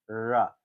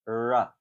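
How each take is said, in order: First: The r is made with spread lips. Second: The same.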